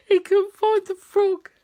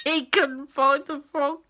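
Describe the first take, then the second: First: Laughing. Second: Said in the usual way. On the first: Real, not acted. Repeat, laughing higher.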